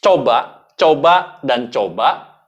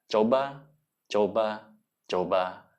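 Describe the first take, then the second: First: Coba coba louder, punched out to drive it home; emphatic urging. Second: Coba coba coba much softer, each one sinking lower and fading; soft urging. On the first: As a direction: hammer each coba like a coach pushing. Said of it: "Lagi-lagi tidak ada yang instan". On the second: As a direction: murmur each coba gently fading away. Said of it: "ingin mengajak orang untuk menangis". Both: Shown as a demonstration.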